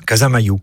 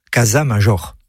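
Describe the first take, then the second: First: "Casamayu" with a y glide and final oo; "Casamayu" with no j or r sounded; local Béarnais pronunciation. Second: "Casa Major" with French j and sounded r; "Casa Major" read letter for letter, French style; French spelling pronunciation. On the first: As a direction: say "Casamayu" the Occitan way, ending -ma-you. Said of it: "prononciation locale du mot latin major". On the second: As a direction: say "Casa Major" as written in French, ending -jor. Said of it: "n'entendent jamais ce nom correctement prononcé". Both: Shown as a demonstration.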